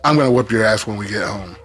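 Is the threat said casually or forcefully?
casually. The threat is said casually, without force.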